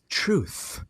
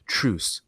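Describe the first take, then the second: First: The word ends with a th sound. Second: The word ends with an s sound. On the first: The speaker calls it right. "but this is truth" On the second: The speaker calls it wrong. "you said truce"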